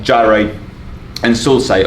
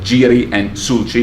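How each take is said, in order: First: It uses the usual English pronunciation. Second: It uses a Latin or Greek pronunciation.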